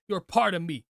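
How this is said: The pitch moves up and down. The speaker calls it right. "go up and down in your inflection"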